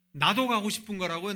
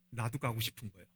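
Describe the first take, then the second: First: 가고 pressed out loud, rising at the end; emphatic repeat. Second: Said in the usual way. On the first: Shown as a demonstration. Preacher driving home the disciples' envy, louder on 가고. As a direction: insist on 가고, louder, ending with a lift.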